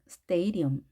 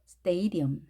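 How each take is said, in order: First: The first vowel is an 'ay' sound. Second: The same.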